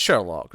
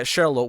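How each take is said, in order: First: Said in the usual way. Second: "Sherlock" with a long o, "Shair-loke"; French-style pronunciation. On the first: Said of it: "but it's Sherlock". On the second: Shown as a demonstration. Conceding the character's corrected name, French-style "Sherlock". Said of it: "Sherlock wants to correct it".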